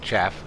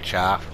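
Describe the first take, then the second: First: The vowel is short, like chaff. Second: The vowel is long, like charf. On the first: This is how the word is usually said. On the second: This is how the speaker has always said it.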